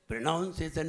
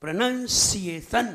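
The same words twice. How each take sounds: First: "प्रोनाउंसिएशन" with an "ow" in the second syllable; casual "प्रोनाउंसिएशन" with "नाउन" for "नन"; wrong pronunciation. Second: Slow "प्रोनंसिएशन" with "नन", never "नाउन"; firm, drawn-out "प्रोनंसिएशन" with a hissed "सि"; correct pronunciation. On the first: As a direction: say "प्रोनाउंसिएशन" like "pronounce", as the mistake. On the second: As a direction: separate the syllables of "प्रोनंसिएशन", hard on s. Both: Shown as a demonstration. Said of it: "प्रोनाउंसिएशन नहीं".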